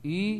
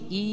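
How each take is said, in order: First: The vowel is heavy and thick. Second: The vowel is light and thin. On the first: "kasroh tebal" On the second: "Kasroh tipis bunyi i"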